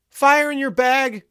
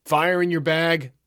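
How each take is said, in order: First: Very high, loud, slow cry; passed-on shout. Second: Higher, louder, drawn-out call; passed-on call. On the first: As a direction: yell it far down the queue in a high voice. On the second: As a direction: relay the call down a queue, slowly. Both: A narrator's reading. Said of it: "the call spread down the line".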